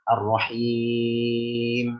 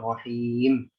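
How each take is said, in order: First: The long vowel is held for six beats. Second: The long vowel is held for two beats. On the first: "Atau enam" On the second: "Boleh taklif"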